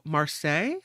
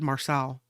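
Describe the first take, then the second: First: The name ends with a Y sound. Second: The name ends with an L sound.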